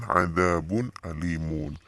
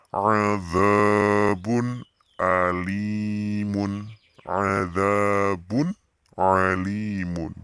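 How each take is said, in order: First: ADZABUN ALIMUN in a more spoken reading, clear n; clear nun. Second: ADZABUN ALIMUN very slow, long vowels; clear recitation. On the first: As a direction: say Adzabun alimun briskly but distinctly, little stretching. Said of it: "jelas kan". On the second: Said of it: "Bacanya jelas nih". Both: Shown as a demonstration.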